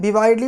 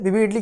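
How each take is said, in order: First: The second syllable has an 'eye' vowel. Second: The second syllable has a short 'i' vowel. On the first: This form is used less often. "विवाइडली भी बोलाता है, लेकिन इसको कम बोला जाता है" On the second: This form is the usual one. "विविडली किया जाता है"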